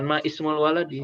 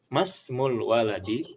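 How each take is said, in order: First: A separate 'i' vowel is sounded before 'smul'. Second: The words run together with no 'i' before 'smul'. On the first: The speaker calls it wrong. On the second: The speaker calls it right. "Jadi langsung hilang"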